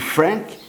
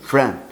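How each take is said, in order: First: The final consonant is pronounced. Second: The final consonant is silent. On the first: The speaker calls it wrong. "me desculpe, não é o correto" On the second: The speaker calls it right. "não se pronuncia a última letra de cada um de seus nomes. Então a pronúncia seria"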